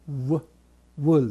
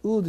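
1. 丸めた唇からの w の半母音で始まります。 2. 普通の u で始まり、唇は丸めません。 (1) "ウールじゃなくてwool" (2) "ウールって言ったら誰も分かってくれませんね"

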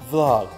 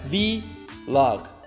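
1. V가 붙어서 한 음절로 발음해요. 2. V는 알파벳 이름처럼 따로 발음해요. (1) "그냥 단어 되는 거예요" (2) "이렇게 알파벳 V로그 아닙니다"

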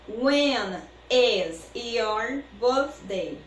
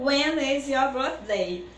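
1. A frase é dita em ritmo normal. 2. A frase é dita um pouco mais rápido.

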